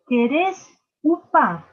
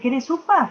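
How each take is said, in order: First: The sounds are articulated with exaggerated mouth movement. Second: The sounds are articulated in a casual way. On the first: "focalizo los sonidos" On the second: "en vez de decirle"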